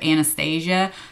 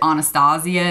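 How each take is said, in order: First: The name is said in a plain, everyday way. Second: The name is said in a fancier-sounding way. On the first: This is the common everyday pronunciation. "instead of" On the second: This is how the owner says her own name. "it sounds like uppity or whatever to pronounce it"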